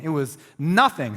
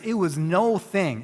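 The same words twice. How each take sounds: First: "nothing" said as one word, stress on "NO-"; "nothing" as one plain word; corrected as one word. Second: "no thing" said as two separate words, slow and even; "no thing" as two words, not "nothing"; split word slip. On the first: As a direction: fix the slip with a quick "nothing". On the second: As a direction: stress "no" then "thing" apart, by mistake. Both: Real, not acted. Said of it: "forgot the difference between no thing and nothing".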